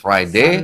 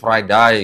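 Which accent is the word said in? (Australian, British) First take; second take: British; Australian. First: It is said in a British accent. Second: It is said in an Australian accent. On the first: "Yang di Inggris" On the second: "yang di Australia"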